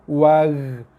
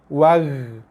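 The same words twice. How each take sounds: Both takes have the same delivery.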